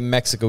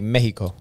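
First: The name has an English pronunciation. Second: The name has a Spanish pronunciation. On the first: It is the outsiders' name for the country. The speaker calls it wrong. "we shouldn't say Mexico" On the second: It is the name the people use themselves. The speaker calls it right. "We should say Mexico"

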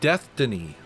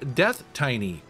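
First: It sounds like 'Destiny' said with a lisp. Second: It is read literally as 'death' plus 'iny'. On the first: "like you have a lisp or something" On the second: "with a straight face, I was saying"

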